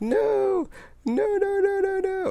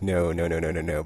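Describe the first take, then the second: First: It is exclaimed loudly and emphatically. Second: It is said flatly without exclamation.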